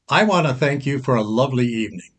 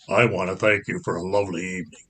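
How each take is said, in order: First: It is said in a normal voice. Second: It is said in a much deeper voice.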